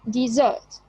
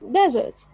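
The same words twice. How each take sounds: First: The stress is on the second syllable. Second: The stress is on the first syllable. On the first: It is a verb meaning to abandon. "it's a verb, so the stress will be on the second syllable" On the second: It is a noun meaning a dry land. "it's a noun, so the stress will be on the first syllable"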